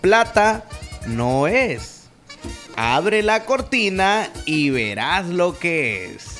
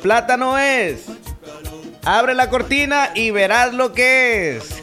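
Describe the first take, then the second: First: It is said slowly. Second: It is said fast.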